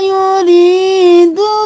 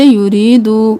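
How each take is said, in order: First: The word is said at an even pace. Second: The word is said hurriedly. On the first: The speaker calls it right. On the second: The speaker calls it wrong.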